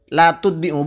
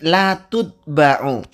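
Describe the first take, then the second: First: The verb's second syllable has an 'i' vowel. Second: The verb's second syllable has an 'a' vowel. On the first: The speaker calls it wrong. "yang betul bukan latut bi'u" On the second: The speaker calls it right. "tapi latut ba'u"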